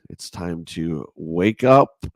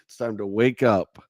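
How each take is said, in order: First: Slow wake-up call. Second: Said in the usual way. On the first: Shown as a demonstration. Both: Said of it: "take it down a little bit".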